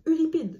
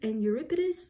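First: The name is pronounced the French way. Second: The name is pronounced the English way. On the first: "I know how to pronounce the names in French" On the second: "I'm sorry if I'm not pronouncing this correctly"

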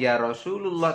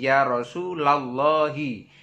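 First: The vowel after 'Rasul' is 'u'. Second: The vowel after 'Rasul' is 'a'. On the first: The speaker calls it wrong. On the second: The speaker calls it right.

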